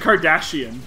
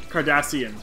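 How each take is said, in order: First: The middle consonant is a 'sh' sound. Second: The middle consonant is an 's' sound. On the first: The speaker calls it wrong. "You just said Kardashian" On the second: The speaker calls it right. "I'm pretty sure it's supposed to be"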